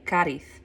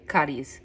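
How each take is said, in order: First: The final consonant is a th sound. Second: The final consonant is a z sound. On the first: This is how the locals say it. "they pronounce the Z as a T H" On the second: This is how an outsider says it. "I couldn't bring myself to do it"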